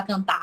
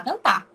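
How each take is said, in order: First: "cantar" with an exaggerated, audible final R; pronounced final R. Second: "cantar" ending on open stressed "tá", no R; dropped final R. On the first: Teacher showing what locals don't say, pronounced R. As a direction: sound out the R ending "cantar". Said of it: "a gente não fala cantar". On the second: Teacher showing everyday speech, dropped final R. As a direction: say "cantar" as "cantá". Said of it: "A gente fala cantar". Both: Shown as a demonstration.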